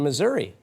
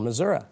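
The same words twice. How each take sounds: First: It has the usual, general pronunciation. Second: It has the local, regional pronunciation.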